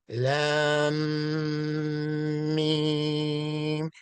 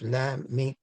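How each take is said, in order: First: Lam and Mim are drawn out long. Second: Lam and Mim are said short and quick. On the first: The speaker calls it right. "The Lam and the Mim are elongated" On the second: The speaker calls it wrong. "people get it wrong. They say Aleph Lam Mim"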